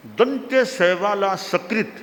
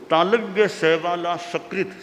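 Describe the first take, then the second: First: सकृत said with a dental s, as sakrit. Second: सकृत said as shakrit, with a palatal sh. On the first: Teacher explaining a Sanskrit word pair, सकृत with dental s. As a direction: open सकृत on a clean s at the teeth. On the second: Teacher explaining a Sanskrit word pair, सकृत with palatal sh. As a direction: begin सकृत with sh rather than s. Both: Shown as a demonstration.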